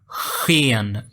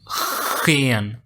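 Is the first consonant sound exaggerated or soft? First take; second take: exaggerated; exaggerated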